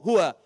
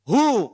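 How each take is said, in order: First: Both syllables are said, ending on wa. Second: Only the first syllable is said, ending on hu.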